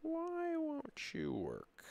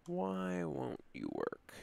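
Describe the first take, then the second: First: High, slow, plaintive plea; pleading with a machine. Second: Softer, slower weary plea; pleading with a machine. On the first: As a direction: beg the program to work. Begging the software, drawn out. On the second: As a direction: sigh the question at it. Begging again, lower. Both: Real, not acted.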